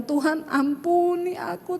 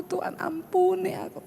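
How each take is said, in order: First: Soft, slow, teary plea for forgiveness; whisper-soft tearful plea to God; retelling a tearful prayer to God, soft and slow. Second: An even softer repeat of the teary plea; fading, barely voiced plea for mercy; retelling the repeated prayer, softer still and tearful. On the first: Retold or imitated. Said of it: "Tiba-tiba air mata saya menetes". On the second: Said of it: "Tiba-tiba air mata saya mengalir".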